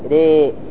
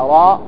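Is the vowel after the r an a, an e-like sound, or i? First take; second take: e-like; a. First: The vowel after r is between a and i. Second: The vowel after r is an open a. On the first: The speaker calls it right. "لكن إمالة الى الكسر ري" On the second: The speaker calls it wrong. "لا راء"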